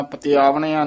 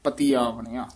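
First: ਪਤੀ ਆਵਣਿਆ said fast and run together, rising; the careless ਪਤੀ ਆਵਣਿਆ to avoid; wrong way. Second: ਪਤੀ ਆਵਣਿਆ, with ਪਤੀ stressed, softly; right way. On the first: (ਗਲਤ ਉਚਾਰਨ) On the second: (ਸਹੀ ਉਚਾਰਨ) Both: Shown as a demonstration. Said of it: "ਨਹੀਂ ਕਹਿਣਾ".

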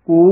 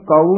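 First: ਕੋ as long "ko-oo"; correct long vowel. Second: ਕਾਊ with open "kau" glide; wrong pronunciation. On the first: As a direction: round o gliding into oo in ਕੋ. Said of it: "ਉਚਾਰਨ ਕਰਨਾ ਹੈ". (ਕੋ ਹੋੜੇ ਤੇ ਦੁਲੈਂਕੜ ਨਾਲ ਲੰਮਾ) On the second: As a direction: open the vowel of ਕਾਊ toward a. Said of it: "ਇਸ ਨੂੰ ਕਾਊ ਨਹੀਂ ਬੋਲ ਜਾਣਾ". (ਕਾਊ ਖੁੱਲ੍ਹੀ ਆਵਾਜ਼ ਨਾਲ) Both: Shown as a demonstration.

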